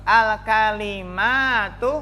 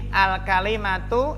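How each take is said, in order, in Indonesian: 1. Vokal setelah m panjang. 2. Vokal setelah m pendek.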